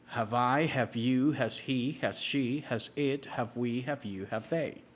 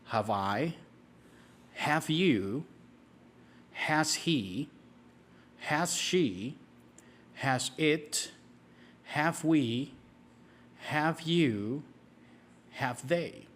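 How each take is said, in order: First: It is said at a very fast pace. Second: It is said at a slow, steady pace.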